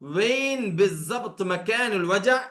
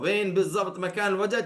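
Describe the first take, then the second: First: The phrase is said at a normal pace. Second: The phrase is said quickly.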